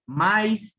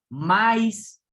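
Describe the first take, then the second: First: "maíz" split ma-ÍZ with the stress on í; "maíz" in two syllables, stress on the weak vowel í; correct stress. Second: "maíz" squeezed into one syllable, "mais" with a diphthong; "maíz" mispronounced with ai run together, stress on a; wrong stress. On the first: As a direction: say "maíz" properly, hitting the í. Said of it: "no, maíz cae en la vocal débil". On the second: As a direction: say "maíz" wrongly, as a two-letter glide. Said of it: "no suena bien". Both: Shown as a demonstration.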